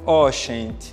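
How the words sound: The G is a hissy sh sound. "que ficou ó gente"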